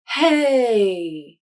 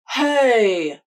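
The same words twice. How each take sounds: First: The voice resonates low in the chest. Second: The voice resonates in the front mouth. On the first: "feel your voice resonate down to your upper chest" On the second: "a front mouth placement"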